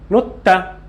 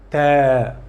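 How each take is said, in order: First: The vowel is short. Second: The vowel is drawn out long. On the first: The speaker calls it wrong. "Ta is one time" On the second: The speaker calls it right. "Prolong it more"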